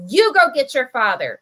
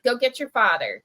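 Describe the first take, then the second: First: Angry demand, loud; furious order. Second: Polite. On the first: Manager angrily orders the boy to fetch dad. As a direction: bark the order at the kid. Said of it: "she looks furious". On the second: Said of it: "much more, you know, like, polite". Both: Retold or imitated.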